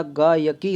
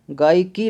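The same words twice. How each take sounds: First: गायकी slowly as gaa-ya-kee; correct three-part form. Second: गायकी run together as gaai-ki; wrong two-part form. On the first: Teacher giving the correct word, गायकी slowly as gaa-ya-kee. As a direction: sound the middle ya in गायकी. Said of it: "गायकी होता है". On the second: Teacher showing the error, गायकी squeezed to gaai-ki. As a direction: skip the middle ya in गायकी. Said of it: "गायकी नहीं होता". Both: Shown as a demonstration.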